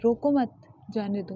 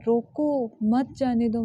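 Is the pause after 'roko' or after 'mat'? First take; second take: after mat; after roko. First: There is a pause after 'mat'. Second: There is a pause after 'roko'.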